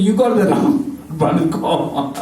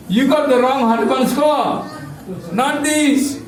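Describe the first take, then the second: First: Said in the usual way. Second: Higher, stern scolding of the messengers; a touch of an annoyed clerk; mock scolding. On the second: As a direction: tell them off for the mistake, playfully. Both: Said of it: "They scolded Yamaduttas".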